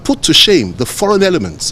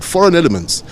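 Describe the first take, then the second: First: Said in the usual way. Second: Foreign elements lifted high and stressed; emphasized phrase. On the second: Real, not acted. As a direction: lean hard on foreign elements. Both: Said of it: "and I emphasize that word".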